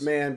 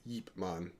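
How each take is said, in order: First: The name starts with a plain vowel sound. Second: The name starts with a Y sound. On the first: This is the common way people say the name. "It's Ip Man" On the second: This is the way the real person's name is said. "if you want to be correct, it's Yip Man"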